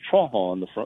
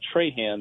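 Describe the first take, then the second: First: The name is said with a Cajun French pronunciation. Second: The name is said with a local English pronunciation. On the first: This is how the name is said on the Louisiana coast. "it's pronounced Trahan on the coast of Louisiana" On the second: This is how the name is said locally on the Mississippi coast. "Traham is how we say it here"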